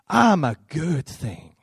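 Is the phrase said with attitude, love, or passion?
passion. It is said with intense passion. "I want you to say it with passion"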